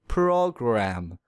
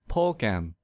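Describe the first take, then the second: First: The R sound is strongly exaggerated. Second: The word is said without an R sound. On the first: The speaker calls it right. "I will exaggerate the R sound" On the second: The speaker calls it wrong. "That's incorrect because the R sound is missing"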